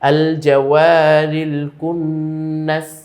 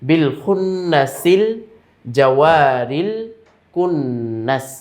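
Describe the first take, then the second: First: It starts fresh on its own with al. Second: It runs on from the previous word without break. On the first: The verse is started after a stop. "আর যদি আমরা মিলাতে না চাই" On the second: The verse is joined to the previous one. "যদি এমন হয় যে আমরা এটাকে মিলাতে চাই ... এইভাবে"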